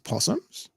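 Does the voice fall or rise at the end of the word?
rise. The voice rises at the end, like a question. It sounds like a question. The speaker calls it wrong.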